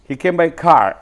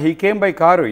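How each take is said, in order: First: The word car ends without any added vowel. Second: The word car ends with an added u vowel. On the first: The speaker calls it right. "కార్ అనాలి" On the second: The speaker calls it wrong. "కారు అంటాం"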